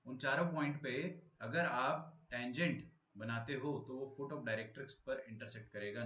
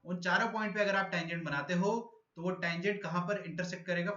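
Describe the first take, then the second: First: Slow, softer repeat of the point; slow, patient restatement; slow re-explaining. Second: Higher, louder first explanation; louder, higher first pass; speaking louder. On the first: Shown as a demonstration. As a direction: spell it out again slowly for confused students. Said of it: "नहीं आया समझ में?". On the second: Real, not acted. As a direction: project the question to the class. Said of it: "तो मैं अब जोर से बोलूंगा".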